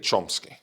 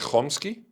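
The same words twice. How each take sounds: First: It begins with a plain ch sound. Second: It begins with a throaty kh sound. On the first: "in English, I say Chomsky" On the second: "in Israeli, I say Chomsky"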